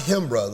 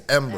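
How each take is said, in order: First: The name begins with an H sound. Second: The name begins directly with a vowel. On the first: The speaker calls it wrong. "it's not Himbra. Like it's not with an H" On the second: The speaker calls it right. "it's Embra"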